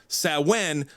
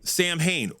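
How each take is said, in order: First: The word is said as 'Sow-in'. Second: The word is said as 'Sam Hain'. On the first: This is the proper way of saying it. The speaker calls it right. "as it's actually supposed to be pronounced" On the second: This is the old-school way of saying it. The speaker calls it wrong. "all the old school people call it Sam Hain"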